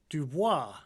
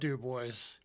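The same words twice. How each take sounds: First: It is said with a French pronunciation. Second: It is said with an English pronunciation. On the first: This is the original form of the name. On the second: This is how the town and senator say it.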